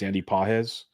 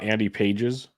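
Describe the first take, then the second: First: The surname does not sound like pages. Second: The surname sounds like the English word pages. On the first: The speaker calls it right. "it's Andy Pajes" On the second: The speaker calls it wrong. "Not Andy Pages"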